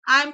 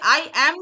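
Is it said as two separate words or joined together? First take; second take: joined; separate. First: The two words are joined into one syllable. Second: The two words are said separately and fully. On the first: The speaker calls it right. "एक साथ pronounce करते हैं" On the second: The speaker calls it wrong. "इसे आई एम नहीं बोलते"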